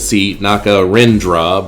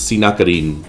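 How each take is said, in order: First: The name ends with an extra dra syllable. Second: The name ends after the rin syllable. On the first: The speaker calls it wrong. "is spelled Si Nakarindra, but nobody's going to know what you're talking about" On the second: The speaker calls it right. "It's Si Nakarin"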